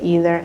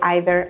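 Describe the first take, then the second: First: The word is said the American way. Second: The word is said the British way. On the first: "in the U S A, most people say" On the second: "In the U K, I think they say"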